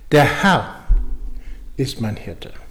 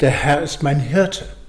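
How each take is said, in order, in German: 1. Die Betonung liegt auf dem Wort Herr. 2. Die Betonung liegt auf dem Wort Hirte. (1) "Also es geht um den Herrn" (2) "und es geht um den Hirten"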